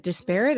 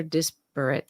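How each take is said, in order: First: "disparate" as dis-PAIR-it; pronunciation option. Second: "disparate" as DIS-per-it; pronunciation option. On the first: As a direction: stress the second syllable of "disparate", like "pair". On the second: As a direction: stress the first syllable of "disparate", middle reduced. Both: Shown as a demonstration. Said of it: "is it disparate or disparate?".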